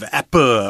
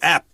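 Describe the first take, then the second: First: An extra vowel is added after the p. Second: The word ends sharply on the p sound. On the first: "instead of appa" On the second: "just when you say app"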